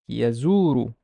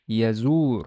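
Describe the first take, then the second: First: The word ends with a short u vowel. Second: The word ends on the r consonant. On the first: "the re has a dhamma in the end" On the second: "the re has a sukun, so I would pronounce it as yazur"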